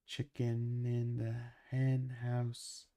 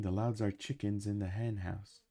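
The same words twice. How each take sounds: First: Slow, drawn-out repeat for chat. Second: Said in the usual way. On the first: Shown as a demonstration. Repeating the line for a confused chat, slowly and deliberately. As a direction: spell it out slowly so chat catches it.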